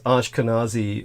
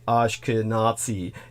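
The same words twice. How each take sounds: First: The z sound is soft. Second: The z sound is hard. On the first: This is the common pronunciation. "what most people pronounce as" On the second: This is the original pronunciation. "the correct pronunciation is actually"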